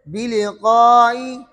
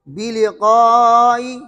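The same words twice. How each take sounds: First: The long vowel is kept short. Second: The long vowel is drawn out at length. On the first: "या इसमें कसर करेंगे" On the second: "मद"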